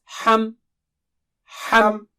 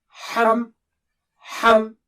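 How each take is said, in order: The two takes are said the same way.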